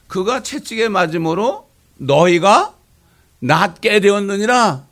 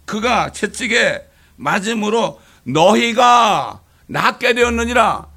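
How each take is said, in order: First: Slow, loud verse reading; slow scripture recital. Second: Very slow, loud, solemn verse reading; slow scripture recital. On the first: Pastor repeating the familiar verse, slow and solemn. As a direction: weigh every word of the verse. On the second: Pastor reciting Peter's verse to the church, slow and solemn. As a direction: lay out each word of the verse slowly. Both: Acted.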